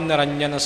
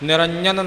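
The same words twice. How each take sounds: First: The 'j' sound is clear and distinct. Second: The 'j' sound is weak and unclear. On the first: The speaker calls it right. "जज्जे की आवाज़ है स्पष्ट" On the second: The speaker calls it wrong. "निरंजन नहीं बोलना"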